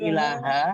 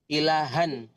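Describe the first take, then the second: First: The word ends on a bare vowel. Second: The word ends with an n sound. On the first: The reading stops after this word. The speaker calls it wrong. "Bukan ilaha, kalau berhenti baru ilaha" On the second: The reading continues to the next word. The speaker calls it right. "Kalau dilanjutkan dibaca han tetap"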